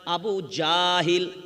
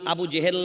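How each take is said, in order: First: The second word is said with a and i vowels. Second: The second word is said with e vowels. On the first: The speaker calls it right. "Abu জাহিল বলেন" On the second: The speaker calls it wrong. "Abu জেহেল নয়"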